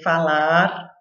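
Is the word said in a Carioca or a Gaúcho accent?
Gaúcho. It is said in a southern Gaúcho accent. This is the speaker's own original way of speaking. "Em vez de falar"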